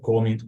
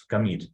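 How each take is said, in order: First: "commit" mis-stressed as COM-mit; wrong stress, first syllable. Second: "commit" stressed as com-MIT; stress on second syllable. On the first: Teacher warns students it's not this, "commit" stressed COM-mit. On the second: Teacher corrects the word for students, "commit" stressed com-MIT. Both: Shown as a demonstration. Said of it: "commit has a stress on the second syllable".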